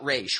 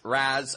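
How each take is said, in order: First: The name ends with an 'sh' sound. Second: The name ends with a plain 's' sound. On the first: This comes from the animated series. The speaker calls it wrong. "not Raish. Raish was just something they did for the animated series" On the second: This follows the original Arabic phrase. The speaker calls it right. "the term in Arabic is pronounced Ra's al Ghul"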